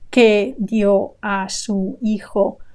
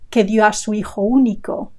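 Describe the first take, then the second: First: There is a pause after every word. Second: The words flow together without gaps.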